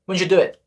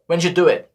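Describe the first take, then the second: The two takes are said the same way.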